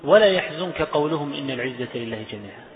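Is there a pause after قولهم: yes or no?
no. It runs on without a pause after قولهم. The claim about might becomes part of what they said. The speaker calls it wrong.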